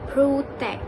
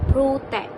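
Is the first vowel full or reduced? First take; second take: full; full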